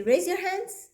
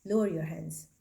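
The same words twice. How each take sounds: First: "Raise your hands" with the pitch rising high at the end; upward inflection. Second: "Lower your hands" said low, falling at the end; downward inflection. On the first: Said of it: "that's an upward inflection". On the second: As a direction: let "Lower your hands" drop down firmly. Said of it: "that's a downward inflection". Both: Shown as a demonstration.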